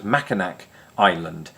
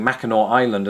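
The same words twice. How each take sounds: First: "Mackinac" ending in a hard nack; mispronunciation demo. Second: "Mackinac" ending in aw, silent c; correct pronunciation. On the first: Owning up to yesterday's mistake, "Mackinac" wrongly said with nack. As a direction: sound the final c in "Mackinac", as spelt. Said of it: "as Mackinac Island". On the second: Owning up to yesterday's mistake, correct "Mackinac" as Mackinaw. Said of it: "When I was pronouncing". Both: Shown as a demonstration.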